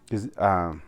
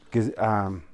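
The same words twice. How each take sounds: The two takes are said the same way.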